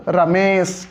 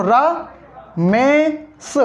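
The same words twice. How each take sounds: First: Said in the usual way. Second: Drawn-out, very slow Ramesh, syllable by syllable; slow syllable split. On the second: Shown as a demonstration. Teacher splitting a name for students, drawn out very slow. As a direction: stretch Ramesh out slowly to split it into pieces. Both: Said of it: "Ramesh के टुकड़े करो".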